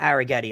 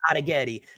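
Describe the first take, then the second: First: The name is said with a New York American accent. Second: The name is said with an Italian pronunciation. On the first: The speaker calls it wrong. "I'm just saying that like an arrogant New Yorker" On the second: The speaker calls it right. "That's how his grandma pronounces it for sure"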